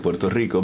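It is said with a Spanish accent. "but I would say with a Spanish accent"

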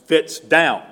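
It is said in a firm, strong adult voice. The command gets obeyed. "in kind of a strong voice"

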